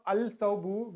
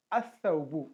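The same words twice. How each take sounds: First: "al-thawbu" with a sounded l before th; lam pronounced. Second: "as-thawbu" with no l, first consonant doubled; lam dropped. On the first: Teacher gives learners the form to avoid, "al-thawbu" with l sounded. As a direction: say the l fully in "al-thawbu". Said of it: "instead of al-thawbu". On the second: Teacher gives learners the correct form, "as-thawbu" with lam silent. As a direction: join a straight to the consonant in "as-thawbu". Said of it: "we used to pronounce as". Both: Shown as a demonstration.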